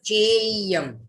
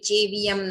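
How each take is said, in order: First: The word is said with two syllables. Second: The word is said with three syllables. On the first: The speaker calls it right. "ये है देवयम, चेयम" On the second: The speaker calls it wrong. "ये चेवियम नहीं है"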